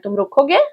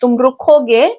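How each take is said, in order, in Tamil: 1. கடைசியில் குரல் ஏறுகிறது, ஒரு கேள்வி போல. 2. கடைசியில் குரல் இறங்குகிறது, ஒரு வாக்கியம் போல. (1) "கேட்டுட்டீங்க அப்படின்னா நீ வெயிட் பண்ணுவியா" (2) "நீ வெயிட் பண்ணுவ"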